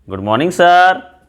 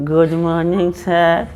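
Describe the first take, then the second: First: It is said loudly with energy. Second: It is said weakly without energy.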